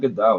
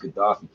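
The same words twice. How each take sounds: First: The 'fi' part is replaced by another sound. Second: The name is said with a clear 'fi' sound. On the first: The speaker calls it wrong. "It's not Gaddafi" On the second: The speaker calls it right. "it's Gaddafi"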